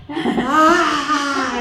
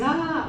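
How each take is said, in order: First: Loud, high imitated bawling; exaggerated mock crying at full blast; sister's huge wail. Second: Short, high mock cry at normal volume; normal sister's cry. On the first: Showing how her own sister cried, loud mock wail. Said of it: "mi hermana lloraba". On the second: Showing how normal sisters cry, a modest mock cry. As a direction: imitate an ordinary little wail. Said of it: "las hermanas normales cuando lloran dicen".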